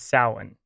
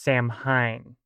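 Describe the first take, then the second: First: It is pronounced with the standard Irish pronunciation. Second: It is pronounced as the English spelling suggests. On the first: The speaker calls it right. "the standard Irish pronunciation is Samhain" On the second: The speaker calls it wrong. "looks like it should be pronounced Samhain. And, yeah, a lot of people do make this mistake"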